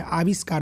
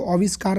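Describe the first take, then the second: First: आविष्कार said correctly with a long open "आ" at the start; correct form. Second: आविष्कार said wrongly, first vowel short and rounded like "ओविष्कार"; wrong form. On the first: Teacher giving students the right pronunciation, calmly. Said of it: "आविष्कार होता है". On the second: Teacher showing students the wrong pronunciation, stated plainly. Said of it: "आविष्कार नहीं होता है". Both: Shown as a demonstration.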